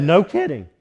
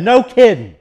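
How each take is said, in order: First: Said in the usual way. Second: Loud, higher mock shout in a neighbor's voice; shouted reply. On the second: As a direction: bellow it back in disbelief.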